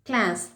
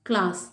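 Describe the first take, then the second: First: It is said in an American accent. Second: It is said in a British accent. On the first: "second பண்ணது American English" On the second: "first நான் pronounce பண்ணுறது எல்லாமே British"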